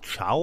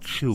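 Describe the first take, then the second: First: The vowel sounds like 'ow' in 'cow'. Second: The vowel sounds like 'oo' in 'shoe'. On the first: The speaker calls it wrong. "Ich habe es nämlich immer in meinem Kopf als Chow betont" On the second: The speaker calls it right. "Wahrscheinlich sollten wir Chu sagen"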